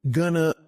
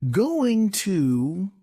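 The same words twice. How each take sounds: First: "gonna" reduced from going to, no t; short, linked "gonna"; connected speech. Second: Said in the usual way. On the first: Shown as a demonstration. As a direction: run it together as "gonna". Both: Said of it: "some examples of connected speech".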